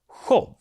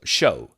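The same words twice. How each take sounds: First: It starts with the Swedish sj sound. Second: It starts with the English sh sound. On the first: "But in Swedish" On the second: "which would be sh in English"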